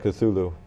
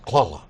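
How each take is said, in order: First: It is said plainly, without a throaty cough. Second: It is said with a throaty coughing sound. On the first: This is how most people refer to it. "that's how most people refer to it" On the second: This is the closest human approximation to the original. "It's kind of a coughing sound"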